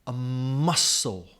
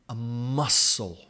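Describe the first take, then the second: No difference in how they are said.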